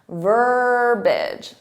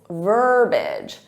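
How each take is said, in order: First: The word is said with two syllables. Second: The word is said with two syllables.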